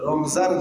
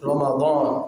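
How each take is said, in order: First: The middle consonant is a z sound. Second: The middle consonant is a d sound. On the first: This is the local everyday form of the name. The speaker calls it wrong. "আমরা কিন্তু সবাই রমজান বলি বাংলা উচ্চারণ" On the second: This is the original scriptural form of the name. The speaker calls it right. "আরবিতে কোরআনে আল্লাহ তাআলা যে শব্দ"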